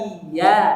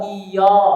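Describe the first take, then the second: First: The vowel after the y sounds thin and bright. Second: The vowel after the y sounds thick and dark. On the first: The speaker calls it right. "Yang betul adalah iya dengan dibaca tipis" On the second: The speaker calls it wrong. "iya-nya menjadi tebal ... ini tebal"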